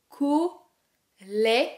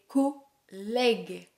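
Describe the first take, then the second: First: The middle vowel is an open è sound. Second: The same.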